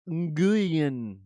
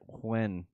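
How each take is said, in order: First: The name begins with an ng sound. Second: The name begins with a plain w sound. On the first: "But it's pronounced ng- Nguyen" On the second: "that's how you say it"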